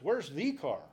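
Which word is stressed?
the. The stress falls on the, not car.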